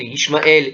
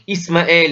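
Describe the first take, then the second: First: The name is said with an sh sound. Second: The name is said with a plain s sound. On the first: This is the Hebrew form of the name. The speaker calls it right. "c'est un shin, ça devrait être toujours Ishmaël" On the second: This is the usual French form of the name. The speaker calls it wrong. "en français on dit Ismaël"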